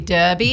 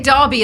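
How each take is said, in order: First: It is said in an American accent. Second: It is said in a British accent. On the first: "in America they say derby" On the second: "we say derby"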